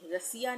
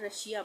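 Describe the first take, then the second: First: The middle consonant is a plain s sound. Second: The middle consonant is an sh sound. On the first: The speaker calls it wrong. "रसिया नहीं बोलते हैं" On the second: The speaker calls it right. "रशिया बोलते हैं"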